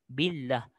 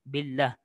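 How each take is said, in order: No difference in how they are said.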